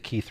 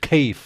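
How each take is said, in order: First: It is said in a standard accent. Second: It is said in a Cockney accent.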